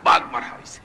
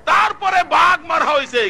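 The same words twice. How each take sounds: First: Voiceless, dropped answer; low whispered echo; hushed repeat. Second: High, forceful proclamation; ringing sermon cry; preaching shout. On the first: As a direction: drop from shouting to an unvoiced murmur. Low repeat after shouted version. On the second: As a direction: shout the line out high to the crowd. Shouted, then repeated low. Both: Real, not acted.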